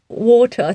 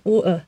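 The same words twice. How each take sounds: First: The T in the middle is clearly pronounced. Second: The T in the middle is dropped.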